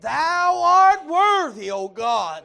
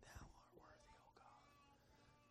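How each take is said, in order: First: It is said loudly and forcefully. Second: It is said quietly and flatly.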